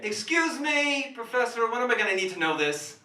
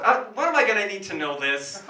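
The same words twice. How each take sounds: First: Whiny student. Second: Louder repeat. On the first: Student heckling the professor. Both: Acted.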